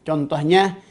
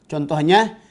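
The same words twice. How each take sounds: The two takes are said the same way.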